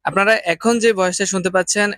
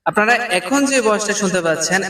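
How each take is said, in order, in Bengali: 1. ভয়েসটা সাধারণ শোনাচ্ছে, কোনো বাড়তি ইকো ছাড়া। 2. ভয়েসটায় বাড়তি ইকো যোগ করে প্রসেস করা হয়েছে। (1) "এটা হচ্ছে এই মাইক্রোফোনের অরিজিনাল ভয়েস" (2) "এটা হচ্ছে ইকো মোডে"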